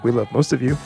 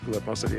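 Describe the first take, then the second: First: It is said louder, close to the microphone. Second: It is said quietly, away from the microphone.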